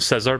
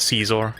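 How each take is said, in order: First: The first vowel is short, like 'scissor'. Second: The first vowel is long, like 'Caesar'. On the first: This matches the joke about scissors. The speaker calls it wrong. "I always called him Scissor" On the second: This is how the game says it. The speaker calls it right. "now apparently you pronounce it as Caesar"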